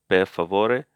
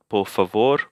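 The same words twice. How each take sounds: First: Per favore with "pehr" and a final "eh"; Italian form. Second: Por favor with "por" and no final e; Spanish form. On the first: Teacher correcting por favor, Italian per favore with final e. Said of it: "It's not por favor, but per favore". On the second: Teacher showing what it's not, Spanish por favor ending on r. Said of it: "Por favore is Spanish". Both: Shown as a demonstration.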